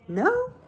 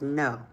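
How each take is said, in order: First: The voice rises like a question. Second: It is said firmly, falling emphatically.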